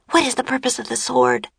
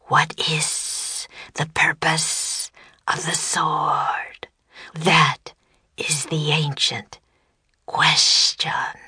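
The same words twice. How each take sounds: First: Put-on high, quick child's voice; Annie asking. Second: Very slow, whispery monster voice; low, deep serpent voice. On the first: Annie turning to Jack for help, asking quickly. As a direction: ask it fast and urgently, pitch up. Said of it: "she asked". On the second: Serpent posing the ancient question, slow deep voice. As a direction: intone it slowly, stretching the hissing sounds. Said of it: "In a low, deep voice, it said". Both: A narrator's reading.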